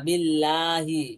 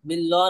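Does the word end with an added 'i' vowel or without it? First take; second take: with; without. First: The word ends with a final 'i' vowel. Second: The word ends without a final vowel. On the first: The speaker calls it right. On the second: The speaker calls it wrong. "বিল্লাহ না"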